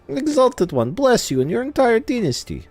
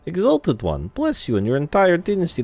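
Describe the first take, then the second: First: The voice is higher-pitched and strained. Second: The voice is deep and low-pitched. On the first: "the higher pitched tone of voice ... it feels strained" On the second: "this is a very male voice. It's very low"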